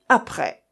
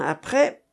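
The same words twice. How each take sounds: First: Curt, dry, falling "Après"; "Après" as a terse, dry challenge. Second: "après" echoed with a rising end; "après" lifted as a retort; echoed question. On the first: A narrator's reading. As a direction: say "Après" drily and cut it short. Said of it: "d'un ton très sec". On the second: Acted. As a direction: throw "après" back, tune going up. Friend echoes the curt challenge.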